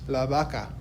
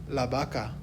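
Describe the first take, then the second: Both takes have the same delivery.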